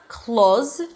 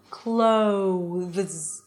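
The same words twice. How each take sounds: First: The vowel stays steady without gliding to oo. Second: The vowel glides from open to a rounded oo. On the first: The speaker calls it wrong. "So it's not clothes" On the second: The speaker calls it right. "you start with your mouth open and you close it to an oo"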